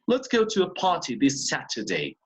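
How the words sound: The t sounds are clearly and fully released.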